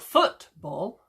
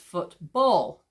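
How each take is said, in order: First: The stress is on the first syllable. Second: The stress is on the second syllable. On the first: The speaker calls it wrong. "it's not football" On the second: The speaker calls it right. "The emphasis goes on the second syllable"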